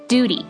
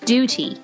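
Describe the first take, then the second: First: It is said with an American accent. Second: It is said with a British accent.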